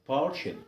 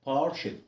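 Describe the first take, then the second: No difference in how they are said.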